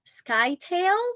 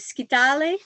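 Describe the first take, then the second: First: It is pronounced the English way. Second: It is pronounced the Greek way. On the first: "That's how the English speakers call it" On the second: "if you go into the Greek pronunciation or in Europe"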